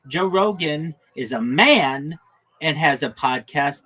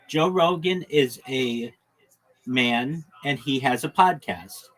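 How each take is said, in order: First: The word man is strongly stressed. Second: No word is given special stress.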